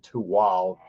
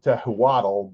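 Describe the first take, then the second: First: The name has a 'w' and ends in 'l'. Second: The name is said as spelled, ending in 'tl'. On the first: The speaker calls it right. "but it's actually Tuwal" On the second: The speaker calls it wrong. "you would be inclined to call it Tehuatl"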